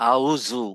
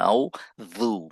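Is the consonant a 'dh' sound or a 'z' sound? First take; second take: z; dh. First: The consonant is a plain 'z' sound. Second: The consonant is a 'dh' with tongue out. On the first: The speaker calls it wrong. "আমরা বলি আউজু" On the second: The speaker calls it right. "এটা হচ্ছে আউজু না"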